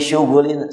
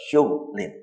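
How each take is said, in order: First: A vowel is heard after the gh sound. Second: No vowel is heard after the gh sound.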